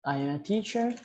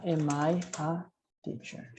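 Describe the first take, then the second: First: Said in the usual way. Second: Slow, rising question on teacher; question tune. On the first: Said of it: "Pergunta, am I a teacher?". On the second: Shown as a demonstration. Teacher shows students a rising question. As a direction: model the question with a clear rise.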